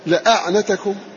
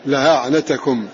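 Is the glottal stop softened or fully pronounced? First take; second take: fully pronounced; softened. First: The glottal stop is fully pronounced. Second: The glottal stop is softened. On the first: "تحقيق الهمز" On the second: "تسهيل"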